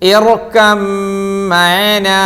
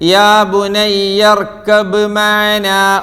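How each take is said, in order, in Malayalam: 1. 'b' ഇരട്ടിച്ച 'm' ശബ്ദത്തിൽ ലയിക്കുന്നു. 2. 'b' ഉച്ചാരണം 'm' ന് മുമ്പ് വേറിട്ട് വരുന്നു. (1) "ബാഇന്റെ ഉച്ചാരണം തീരെ ഇല്ല" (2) "ആരെങ്കിലും അവിടെ ... ഓതിയോ? ... ഇല്ല"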